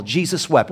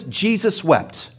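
First: Said in the usual way. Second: Slow solemn reading. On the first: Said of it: "this is the shortest verse in the Bible". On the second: Shown as a demonstration. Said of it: "Notice this".

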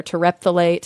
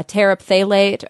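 First: "terephthalate" run together as ter-EPH-tha-late; alternative pronunciation. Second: "terephthalate" with a separate "tera" opening; alternative pronunciation. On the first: Podcaster offering listeners another option, alternative pronunciation. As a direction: stress the second syllable of "terephthalate". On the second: Podcaster offering listeners one option, alternative pronunciation. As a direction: say "terephthalate" as TER-up-THAL-ate. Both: Shown as a demonstration. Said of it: "however you want to pronounce it".

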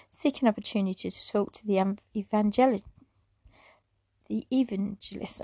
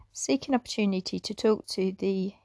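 First: Rushed stumbling read, words tangle; tripping over words. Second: Said in the usual way. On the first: Real, not acted. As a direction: hurry and trip over the phrase. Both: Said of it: "I'm tripping over my words again".

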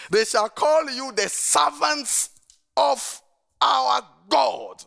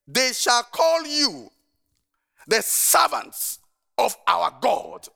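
First: Even slower, higher and louder proclamation; slower scripture reading. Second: Slow, lifted, deliberate proclamation of scripture; slow scripture reading. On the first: Pastor repeating the verse for emphasis, slow and lifted. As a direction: stretch the verse out, word by word. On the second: Pastor proclaiming a verse to the congregation, slow and solemn. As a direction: read each word out slowly and solemnly. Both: Real, not acted.

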